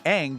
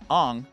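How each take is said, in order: First: The name is said the established way. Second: The name is said the changed way. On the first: The speaker calls it right. "years of established pronunciation" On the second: The speaker calls it wrong. "do it our way"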